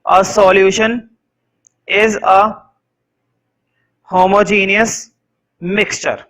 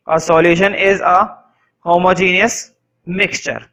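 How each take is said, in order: First: Measured dictation with pauses between words; teacher dictating a definition; slow dictation. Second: Stretched-out repeat, each word drawn long; teacher repeating the definition even slower; very slow dictation. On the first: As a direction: let them write each word. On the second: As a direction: repeat it slowly for the back row. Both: Shown as a demonstration.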